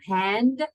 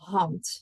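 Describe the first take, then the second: First: It is said with English pronunciation, final voiced d. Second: It is said with Dutch pronunciation, final t sound. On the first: The speaker calls it wrong. "So not hand" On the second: The speaker calls it right. "Dutch pronunciation, meaning the D is a T"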